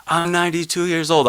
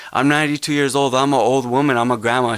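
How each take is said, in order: First: Put-on quoted elderly grandma, pitched up high; voicing the old woman, lifted and earnest; elder's words. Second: A lightly raised, quicker retelling of the grandma; elder's words. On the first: Activist recalls a ninety-two-year-old elder's plea, in a high, earnest quoted voice. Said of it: "she was like". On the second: Retold or imitated. Activist re-quotes the elder grandma, lightly raised and quick. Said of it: "I'm paraphrasing now".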